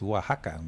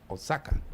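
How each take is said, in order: First: The x is said as an h sound. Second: The x is said as a ks sound. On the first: It is how the name is really said. The speaker calls it right. "Y es Oaxaca" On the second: It follows the written spelling. The speaker calls it wrong. "Oaxaca se escribe"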